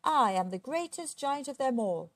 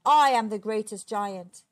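First: Proud giant's boast, pitched up; swaggering storybook giant. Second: Loud angry giant's roar; booming, furious storybook giant. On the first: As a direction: boast grandly with a high, punched start. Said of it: "he would boast". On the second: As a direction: roar it out in a rage. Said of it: "he roared". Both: A narrator's reading.

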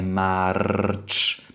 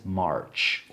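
First: "march" with a rolled Polish R; wrong Polish R. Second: "March" with a soft, untrilled R; soft English R. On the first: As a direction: trill the R hard in "march". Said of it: "nie takie polskie R". (błędne „march” z polskim R) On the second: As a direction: quieter "March" with a smooth English R. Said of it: "angielskie, miękkie R". („March” z miękkim angielskim R) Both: Shown as a demonstration.

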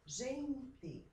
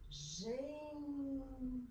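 First: Said in the usual way. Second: "gente" with GEN high and very long; syllable by syllable. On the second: Shown as a demonstration. Teacher separates the word for pupils, "gente" syllable by syllable. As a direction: hold GEN, pause, then TE in "gente". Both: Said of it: "as palavras em sílabas".

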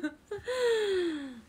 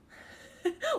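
First: High laugh trailing down; falling laugh. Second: Rising laugh. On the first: Amused by a friend's retort, laugh sinking down. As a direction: let the laugh fall away. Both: Real, not acted. Laughing at being told angry.

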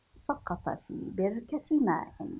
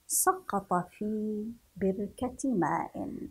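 First: Said in the usual way. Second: Drawn-out reading of سقط في بركة ماء; slow reading. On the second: Shown as a demonstration. Teacher to children, slow and deliberate. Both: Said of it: "repeated sentence".

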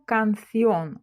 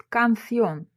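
First: Канціон slowly, with the final О stressed; teacher's careful канціон, leaning on the last syllable's О. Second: Said in the usual way. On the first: Shown as a demonstration. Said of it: "ставимо графічний наголос на О". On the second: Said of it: "але чуємо канціон".

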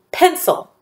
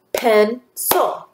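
First: Said in the usual way. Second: "Pencil" broken in two, pen, cil, with a clear pause; split into syllables. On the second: Shown as a demonstration. Teacher showing two syllables to students, "Pencil" split in two. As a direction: say "Pencil" one syllable at a time. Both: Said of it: "I hear two syllables in the word pencil".

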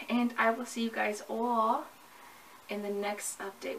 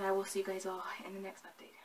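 First: Said in the usual way. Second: Breathy whispered goodbye; whispered sign-off. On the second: Real, not acted. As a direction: whisper the farewell softly to the viewers. Closing line repeated whispered.

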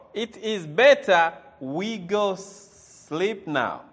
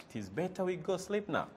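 First: Slow, loud and deliberate; slow loud teacher demo; slow emphatic model sentence. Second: Said in the usual way. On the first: Shown as a demonstration. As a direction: spell it out slowly for learners.

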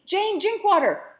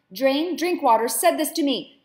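First: Much higher, slow, loud emphasis on Drinkwater; shrieking repeat. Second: High, loud enraged outburst; furious shout. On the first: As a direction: shriek the name out slowly in disgust. Madam repeats name in rage. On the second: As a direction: hurl the name at her. Madam shouts in rage. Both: Acted.

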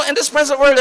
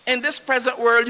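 First: Shouted phrase. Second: Said in the usual way. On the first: Real, not acted. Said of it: "No, no, no, no". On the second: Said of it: "repeated calmer".

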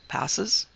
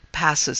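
First: "Passes" rising as a puzzled question; questioning echo. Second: "Passes" as a short answer, falling tune; plain statement tune. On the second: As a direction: say "Passes" with a settled fall. Answer, then echoed as question. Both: A narrator's reading.

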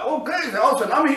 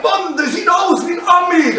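First: Quick, softer musing; muted self-appraisal. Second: High, excited fan's yell; imitated crowd shouting. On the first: Retold or imitated. Athlete reassuring himself on stage, quick muted musing. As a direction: take the compliment in under your breath. Athlete's own reaction to the shout. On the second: Spectators shouting at the athlete on stage, excited yell. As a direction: call it out like an amazed spectator. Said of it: "waren Leute am Schreien".

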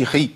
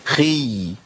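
First: خي short, the sound chopped off; ya cut short. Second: خي drawn out, the ya flowing on; long-held ya. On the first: Teacher showing the wrong ending, short cut-off خي. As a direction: stop خي abruptly without holding y. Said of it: "ما أقولش خي". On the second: Teacher isolating the right ending, خي with long ya. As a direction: hold the y of خي for two letters. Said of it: "لازم أقول". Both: Shown as a demonstration.

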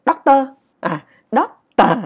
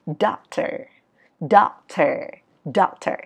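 First: "Doctor" loud, chopped into two syllables; Vietnamese intonation. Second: "Doctor" with long gliding syllables; English sliding intonation. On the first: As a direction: hit "Doctor" hard and short, no slide. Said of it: "tiếng Việt của mình là như vậy". (đọc "Doctor" chặt khúc kiểu Việt) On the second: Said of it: "ngữ điệu trượt đi lên và trượt đi xuống". (đọc "Doctor" trượt lên rồi xuống) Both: Shown as a demonstration.

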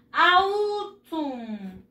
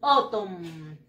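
First: "Autumn" sounded as written, AH-OO-toom; spelling pronunciation. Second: "autumn" said OH-tom, low; correct pronunciation. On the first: Teacher shows pupils the spelling, "Autumn" as slow ow-TOOM. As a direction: draw out "Autumn" letter by letter, Spanish-style. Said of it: "se escribe así". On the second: Teacher shows pupils how it is pronounced, "autumn" as OH-tom. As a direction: model "autumn" with one long o to start. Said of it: "Se pronuncia". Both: Shown as a demonstration.

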